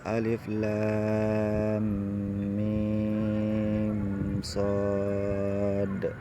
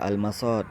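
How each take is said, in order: First: Each letter name is said separately and drawn out. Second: The letters run together as one short word. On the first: The speaker calls it right. "tapi alif lam mim shad" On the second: The speaker calls it wrong. "jangan dibaca al-masad, salah"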